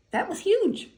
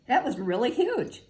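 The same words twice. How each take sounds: First: High, louder burst on "huge"; "huge" leaps up high and loud; excited emphasis. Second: Said in the usual way. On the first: Real, not acted.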